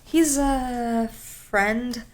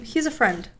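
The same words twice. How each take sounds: First: Drawn out very slowly, hesitant and suspicious; extremely sus. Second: Brisk, matter-of-fact, believable; casually sure of it; more confident. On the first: Retold or imitated. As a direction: stretch it out like you're hiding something. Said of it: "make it sound so extremely sus". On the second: Shown as a demonstration. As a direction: say it straight, with no hesitation. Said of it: "be more confident".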